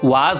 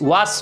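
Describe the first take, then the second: First: The word ends with a z sound. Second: The word ends with an s sound. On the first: The speaker calls it right. "ওয়াজ উচ্চারণ হয়" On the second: The speaker calls it wrong. "ওয়াস হয় না উচ্চারণ"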